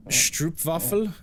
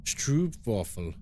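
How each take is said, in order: First: Stroopwafel said slowly, with shtroop at the start and a rising tune; first attempt at a Dutch word. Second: Stroopwafel said slowly with a Dutch v, and the pitch falling at the end; corrected Dutch try. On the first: Streamer trying a Dutch word for the chat, slow and unsure. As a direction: sound out Stroopwafel carefully as a question. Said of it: "Am I saying that right". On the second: Streamer copying the chat's correction, slow and careful. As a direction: stretch out Stroopwafel the way chat spelled it, slow and careful. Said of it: "Stroopwafel is more like".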